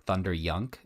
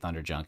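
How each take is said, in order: First: The second part begins with a Y sound. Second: The second part begins with a J sound. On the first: The speaker calls it right. "with a umlaut above the U, so it was like more Thunder Yunk is kind of how it was pronounced" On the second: The speaker calls it wrong. "It wasn't quite Thunderjunk"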